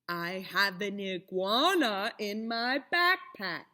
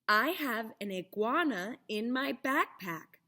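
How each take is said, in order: First: It is said slowly, with exaggerated lip movement. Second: It is said at a natural, quicker pace.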